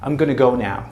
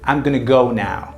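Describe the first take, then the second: First: Going to is reduced and run together as gonna. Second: The same.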